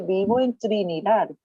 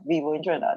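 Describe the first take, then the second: First: Trinidad is pronounced with a Spanish accent. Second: Trinidad is pronounced with an English accent. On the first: The speaker calls it right. "That's the Spanish pronunciation" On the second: The speaker calls it wrong. "we are accustomed saying Trinidad and you know we speak English here"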